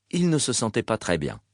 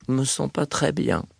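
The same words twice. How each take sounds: First: Said in the usual way. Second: Understated tired patient, neutral voice; neutral, weary. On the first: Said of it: "la voix neutre". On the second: A narrator's reading. Patient telling the duty doctor what brings him, neutral and weary. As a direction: say it neutrally, with a touch of weariness. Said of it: "la voix neutre, le ton las".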